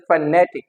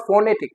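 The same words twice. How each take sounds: First: "phonetic" as fuh-NE-tic; weak first syllable, stressed NE in "phonetic"; correct pronunciation. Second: "phonetic" as FO-ne-tic, stress up front; wrong pronunciation. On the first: Teacher correcting the error for learners, properly stressed. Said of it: "it is phonetic". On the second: Teacher contrasting the learners' error, mispronounced. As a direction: put the beat on the first syllable of "phonetic". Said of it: "it is not phonetic". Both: Shown as a demonstration.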